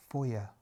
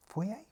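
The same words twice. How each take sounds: First: "Foyer" ending in an unstressed ER, falling; settled pronunciation. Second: "Foyer" ending in an AY sound, rising; questioned pronunciation. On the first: Reader settles how to say foyer, falling FOY-er. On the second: Reader checks how to say foyer, questioning FOY-ay. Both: Shown as a demonstration.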